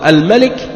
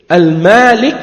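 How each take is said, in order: First: The first vowel is said short. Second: The first vowel is said long. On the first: It means the king. "c'est le roi" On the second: It means the owner or possessor. "avec le alif"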